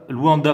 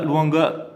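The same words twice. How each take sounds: First: "Luanda" corrected, clear d in the last syllable; careful correction. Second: "Luanga" with a hard g instead of d; slip of the tongue. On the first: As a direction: fix it: "Luanda", stressing -da. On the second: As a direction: say "Luanga" as a quick slip, ending -nga. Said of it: "Luanda, pardon". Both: Real, not acted.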